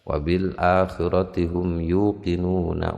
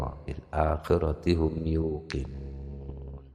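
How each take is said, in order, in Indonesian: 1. Kata terakhir bersambung, vokalnya tetap pendek. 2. Kata terakhir berakhir dengan henti, vokalnya dipanjangkan. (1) "Kalau diteruskan begitu ya tidak panjang-panjang banget" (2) "Agak panjang"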